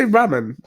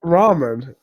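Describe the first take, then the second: First: "ramen" said RAM-en; short a as in "ram" at the start of "ramen"; short-a pronunciation. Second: "Ramen" said RAH-men; long-a pronunciation. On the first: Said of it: "Do you say ramen?". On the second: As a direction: open "ah" in the first syllable of "Ramen". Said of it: "why can't you say ramen". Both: Shown as a demonstration.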